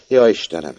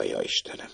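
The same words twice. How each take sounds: First: A cry of dismay; exclaiming. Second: Breathy whisper of dismay; whispered cry. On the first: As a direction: call out to God in alarm. (felkiáltva) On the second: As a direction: whisper it under your breath. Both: A narrator's reading. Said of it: "kiáltotta".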